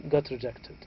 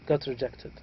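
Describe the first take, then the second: Both takes have the same delivery.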